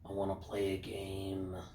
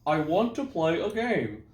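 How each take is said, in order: First: It is said in a scary, menacing voice. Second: It is said in a silly, unscary voice.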